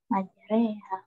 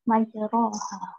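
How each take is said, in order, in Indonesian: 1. Vokal setelah r condong ke e. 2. Vokal setelah r adalah a terbuka biasa.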